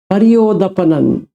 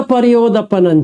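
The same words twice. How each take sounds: First: परियोदपनन repeated slowly, syllable by syllable. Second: Said in the usual way. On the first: Shown as a demonstration. Teacher repeating the Pali word for the student, slowly. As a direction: spell out परियोदपनन slowly so it sinks in.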